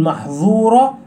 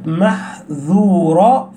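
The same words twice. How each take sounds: First: "محظورة" with a heavy emphatic ظ; the mistake, thicken the middle consonant to ظ in "محظورة"; dhal made emphatic. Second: "محذورة" slowly, with a light ذ, not emphatic; clear light dhal. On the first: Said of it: "فلا تقول محظورة". ("محظورة" بظاء مفخمة بدل الذال) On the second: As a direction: keep the ذ thin and distinct in "محذورة". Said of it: "تبين الذال من كلمة". ("محذورة" ببطء، بذال مرققة مبينة) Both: Shown as a demonstration.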